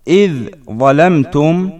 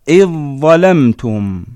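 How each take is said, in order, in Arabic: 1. تُنطق الذال قبل الزاي. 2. تندمج الذال في زاي مشددة. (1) "نحو" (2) "تصبح"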